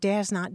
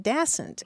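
First: It is said as two full, separate words. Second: It is said quickly, merged into one word.

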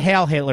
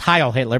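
First: The first word has the vowel of 'hail'. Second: The first word has the vowel of 'high'. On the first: The speaker calls it wrong. "It's not Hail Hitler" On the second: The speaker calls it right. "It's Heil Hitler"

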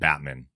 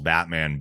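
First: The second syllable is said as min. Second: The second syllable is said as man. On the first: The speaker calls it wrong. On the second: The speaker calls it right.

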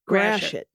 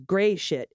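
First: The first syllable sounds like 'grash'. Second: The first syllable sounds like 'gray'. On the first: The speaker calls it right. "Instead, it's grashit" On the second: The speaker calls it wrong. "we do not pronounce it as gray shit"

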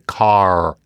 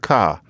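First: The word ends with a clear R sound. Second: The word ends in a vowel with no R. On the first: "in good American, we say car" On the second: "in many Britishes, it's a ka"

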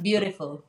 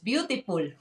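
First: It is said with a standard English accent. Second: It is said with a Filipino English accent. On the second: "as we say in Philippines"

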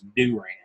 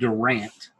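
First: The name is said in the rural local way. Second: The name is said in the common outsider way. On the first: The speaker calls it right. "It's Durant. ... that's the most hick way of saying anything" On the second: The speaker calls it wrong. "I didn't say it right"

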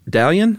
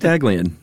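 First: The G sound in the name is silent. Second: The G sound in the name is pronounced. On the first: "So silent G" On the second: "I like Daglian"

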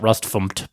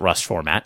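First: The end is spelled out letter by letter. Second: The end is said as the full word format. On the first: "sometimes people pronounce it Rust FMT" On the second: "but I pronounce it Rust Format"

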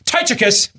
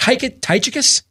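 First: The name is said boldly, like an exclamation. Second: The name is said hesitantly, like a question. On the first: The speaker calls it right. "That was confident" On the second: The speaker calls it wrong. "That wasn't confident"

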